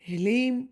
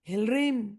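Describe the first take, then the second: First: The word is said without an r sound. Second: The word is said with an r sound. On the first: "अगर नहीं हो पाया तो" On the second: "प्रयास करना"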